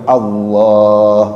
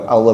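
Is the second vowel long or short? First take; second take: long; short. First: The second vowel is drawn out long. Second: The second vowel is held short. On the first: The speaker calls it right. "tapi Allah itu dibaca panjang" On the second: The speaker calls it wrong. "bukan Allah"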